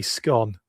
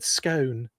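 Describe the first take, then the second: First: "scone" said with a short o, rhyming with gone; northern scone. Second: "scone" said with a long o, rhyming with stone; posh scone. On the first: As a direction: say "scone" the colloquial way, skon. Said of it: "they've got more of a colloquial twang". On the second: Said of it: "I was very posh, very well spoken". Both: Shown as a demonstration.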